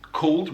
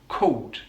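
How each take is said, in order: First: The L is a dark L sound. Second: The L sounds like a w, Cockney style.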